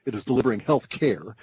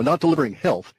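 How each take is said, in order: First: "care" set apart after "health"; stress on care. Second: "health" lifted as the contrasting word; stress on health. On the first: Explaining what the industry delivers instead, stress on "care". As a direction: add weight to "care" as the correction, falling. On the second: Explaining what the industry fails to deliver, stress on "health". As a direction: land on "health", pitched up. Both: Real, not acted.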